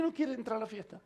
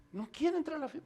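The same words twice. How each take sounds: First: Lightly acted father questioning the news; mild disbelief, kept quiet; puzzled echo. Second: Lightly acted servant passing on news, quietly; understated, falling statement; hushed report.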